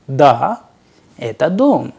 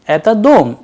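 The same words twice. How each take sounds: First: Said in the usual way. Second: ДОМ pushed up high and louder; question intonation. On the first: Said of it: "in affirmative, the answer was". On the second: Shown as a demonstration. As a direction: ask "Это дом" with a sharp rise on ДОМ. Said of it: "it was an interrogative".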